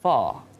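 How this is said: The final R sound is dropped. "di Britishnya, R-nya tuh kadang nggak dibaca"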